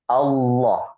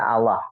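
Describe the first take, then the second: First: The L is heavy and thick. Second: The L is light and thin. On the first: The speaker calls it right. "tapi Allah ya, tebal seperti itu" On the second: The speaker calls it wrong. "jangan baca Allah"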